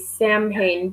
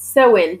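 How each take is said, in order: First: It is said as spelled, like sam-hain. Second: It is said like sow-in, without m. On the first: The speaker calls it wrong. "I feel like I should say Samhain, but it's not" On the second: The speaker calls it right. "It's Soin pronounced"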